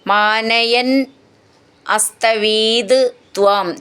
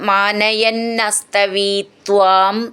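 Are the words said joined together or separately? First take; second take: separate; joined. First: The words are said separately without sandhi joining. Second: The words are joined into one sandhi form.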